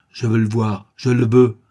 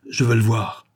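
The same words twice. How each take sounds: First: Building to a loud insistent demand; stubborn insisting, rising in volume. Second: Imperious demand. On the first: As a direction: hammer home the demand, louder at the end. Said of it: "insistait Favreau". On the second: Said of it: "exigeait Favreau d'un accent impérieux, farouche". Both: A narrator's reading.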